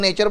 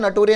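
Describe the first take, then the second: First: It is said in two syllables, like 'nay-cher'. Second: It is said in four syllables, like 'na-to-ri-a'. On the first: The speaker calls it right. "इसको नेचर बोलते हैं" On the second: The speaker calls it wrong. "नटोरिया नहीं बोलते"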